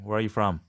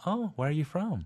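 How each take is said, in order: First: It sounds blunt and curt. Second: It sounds polite and friendly.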